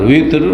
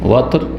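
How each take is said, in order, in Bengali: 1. প্রথম স্বরধ্বনিটি একটি উঁচু 'i' ধ্বনি। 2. প্রথম স্বরধ্বনিটি একটি খোলা 'a' ধ্বনি। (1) "ওয়ায়ে কাসরা জের দিয়ে" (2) "ওয়ায়ে ফাতাহ দিয়ে জবর দিয়ে"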